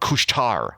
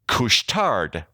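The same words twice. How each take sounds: First: The final D sound is silent. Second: The final D sound is pronounced. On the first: The speaker calls it right. "because they dropped the D" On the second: The speaker calls it wrong. "I said that wrong"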